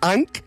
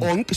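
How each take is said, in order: First: The word is said with an English-style vowel. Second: The word is said with a Catalan-style vowel. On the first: "si ho fas de l'anglès" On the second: "si ho fas al català"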